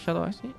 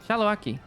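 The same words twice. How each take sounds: First: The middle consonant is an S sound. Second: The middle consonant is a K sound. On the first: "the C as a S sound" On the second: "I'm gonna say K"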